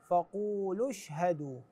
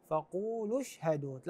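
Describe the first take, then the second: The two takes are said the same way.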